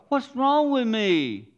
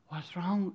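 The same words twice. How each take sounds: First: High, loud, slow wail of "wrong"; anguished cry. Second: Said in the usual way. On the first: Retold or imitated. A hurting believer crying out high and loud.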